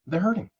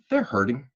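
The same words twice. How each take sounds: First: "hurting" lifted high with a rising tune; emphatic repeat. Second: Said in the usual way. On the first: Shown as a demonstration. To the audience, stressing that they're hurting on a high "hurting". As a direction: push "hurting" up high the second time.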